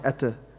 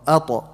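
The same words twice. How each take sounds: First: The t sound is light and thin. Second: The t sound is heavy and full. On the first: The speaker calls it wrong. "Don't say ata" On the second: The speaker calls it right. "ta is heavy, so make it heavy as well"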